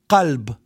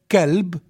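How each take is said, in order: First: The word begins with a deep uvular q sound. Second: The word begins with a plain k sound. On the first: "So we have the word qalb" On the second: "In some area with ka"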